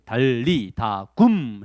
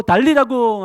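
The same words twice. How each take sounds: First: "달리다 굼" spelled out very slowly; slow repeat. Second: "달리다 굼" called out high and louder; commanding call. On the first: Shown as a demonstration. 선생님이 아이들에게 천천히 따라하게. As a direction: drawl each syllable of "달리다 굼". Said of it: "했어요". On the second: Acted. Jesus calling the dead girl to rise, commanding. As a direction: cry "달리다 굼" to wake the girl. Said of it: "예수님이 그 죽은 아이의 손을 붙잡고".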